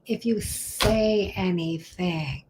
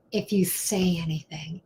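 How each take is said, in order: First: Slow, deliberate delivery; slow and drawn out. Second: Said in the usual way. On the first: Shown as a demonstration. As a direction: stretch each word out slowly.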